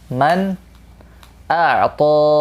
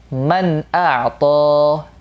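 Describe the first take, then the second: Both takes have the same delivery.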